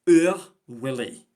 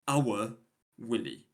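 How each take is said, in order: First: It is said in a Scottish accent. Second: It is said in a standard British accent.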